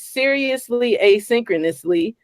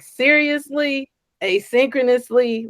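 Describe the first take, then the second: First: It is said flatly, as a plain title. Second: It is said with incredulous disbelief.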